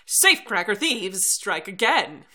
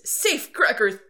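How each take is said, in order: First: It is read in a 1950s newsreel voice. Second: It is read in a modern news voice.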